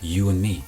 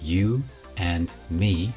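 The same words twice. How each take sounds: First: The d at the end of and is dropped. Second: The d at the end of and is pronounced.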